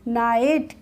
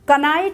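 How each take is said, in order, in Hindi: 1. इस शब्द की शुरुआत n से होती है; k साइलेंट है। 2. इस शब्द की शुरुआत k की आवाज़ से होती है। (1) "के इसमें साइलेंट रहेगा" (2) "कनाइट नहीं बोलेंगे"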